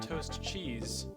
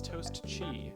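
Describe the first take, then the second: First: The second word ends with a z sound. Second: The second word ends on a vowel sound. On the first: The speaker calls it wrong. "common mistake, It's not toast cheese" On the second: The speaker calls it right. "It's toast chi"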